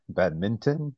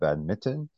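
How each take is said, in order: First: An N sound is heard before the T. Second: No N sound is heard before the T. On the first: The speaker calls it right. "So there's an N in there" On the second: The speaker calls it wrong.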